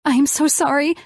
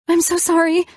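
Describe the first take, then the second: First: Higher, tearful, shaking apology; crying apology. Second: Much higher, louder, breaking sob; the apology cracks up into a wail; crying apology. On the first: Elena crying to Colin at dinner, tearful and high. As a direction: sob the apology out. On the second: Elena breaking down to Colin, high wailing sob. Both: A narrator's reading. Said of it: "I started crying".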